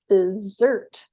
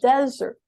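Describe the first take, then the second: First: The stress is on the second syllable. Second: The stress is on the first syllable. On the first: It names a sweet food eaten after a meal. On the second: It names a dry place.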